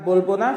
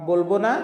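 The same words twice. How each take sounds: The two takes are said the same way.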